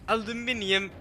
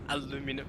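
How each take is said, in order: First: The word is said in the British form. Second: The word is said in the American form. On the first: The speaker calls it right. "aluminium just sounds correct" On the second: The speaker calls it wrong. "the people who translated it were just Americans and that's what they're used to"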